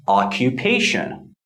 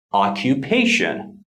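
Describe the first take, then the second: First: Occupation with primary stress on pa. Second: Occupation, primary stress on pa, lighter stress on oc. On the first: Teacher modeling occupation, stress on pa. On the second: Teacher repeats the word for students, stress on pa. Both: Shown as a demonstration. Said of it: "the primary stress falls on the third syllable".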